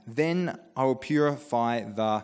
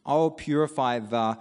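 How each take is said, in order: First: Slow, drawn-out half sentence; trailing off. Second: "will" leaned on, then left hanging; trailing off. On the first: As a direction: stop mid-sentence and let it hang. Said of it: "now I'm just gonna pause there". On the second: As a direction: stress "will" and stop after "the". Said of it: "how would you finish that?". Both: Shown as a demonstration.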